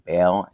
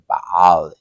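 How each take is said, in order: First: The name is said with American English sounds. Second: The name is said with Hebrew sounds. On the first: "in American accented English" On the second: "in Hebrew"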